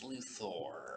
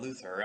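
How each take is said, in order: First: The last syllable sounds like 'thor'. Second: The last syllable sounds like 'ther'. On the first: The speaker calls it right. "it's Luthor. because there's an O R, not an E R" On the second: The speaker calls it wrong. "when they say Lena Luthor, I'm like, ah"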